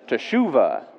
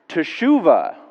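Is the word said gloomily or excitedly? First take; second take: excitedly; excitedly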